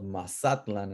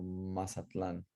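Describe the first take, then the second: First: Mazatlan as ma-SA-tlan; older stress. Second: Mazatlan as ma-sa-TLAN; modern stress. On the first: Teacher tells class the former name, penultimate stress. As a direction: stress the middle syllable of Mazatlan. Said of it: "it's used to be called". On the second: Teacher tells class the changed name, final stress. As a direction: move the weight of Mazatlan to the last syllable. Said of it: "we changed it to Mazatlan". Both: Shown as a demonstration.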